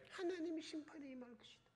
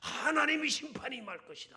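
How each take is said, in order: First: It is said in a faint, fading voice. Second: It is shouted in a loud, strong voice. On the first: The prophet does not want the people to repent. "기들어가는 목소리로" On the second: The prophet eagerly proclaims the warning. "막 외치고 다녔겠죠"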